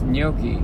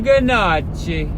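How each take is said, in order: First: The word is said with a soft, silent G. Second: The word is said with an Italian-style sounded G. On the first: "Like with the soft G" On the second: "in the hills of Italy ... they would say"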